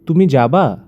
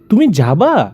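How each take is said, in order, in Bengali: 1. এটা সমতল ভাবে বলা হয়, কোনো জোর নেই। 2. এটা কিছু শব্দের উপর জোর দিয়ে বলা হয়। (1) "এই যে তুমি যাবা এটা না বলে" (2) "বলতেছে যে তুমি যাবা"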